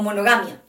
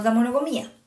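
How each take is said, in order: First: "monogamia" with the stress on "GA"; acento corregido. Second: "monogamia" mal acentuada, como "monogamía"; acento equivocado. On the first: ("monogamia" corregida, con acento en "ga") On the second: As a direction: say "monogamia" with the stress slipped onto a late "MÍ". ("monogamia" con el acento corrido a la í) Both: Real, not acted. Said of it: "un problema de acentuación en esa palabra".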